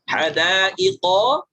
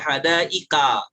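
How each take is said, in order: First: The word ends with an o vowel. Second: The word ends with an a vowel. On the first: The speaker calls it right. "hadaiqo dibaca hadaika" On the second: The speaker calls it wrong. "terpengaruh dialek"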